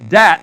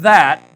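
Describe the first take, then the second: First: The word begins with a hard d sound. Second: The word begins with a soft th sound. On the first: The speaker calls it right. "And it's dat" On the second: The speaker calls it wrong. "not that"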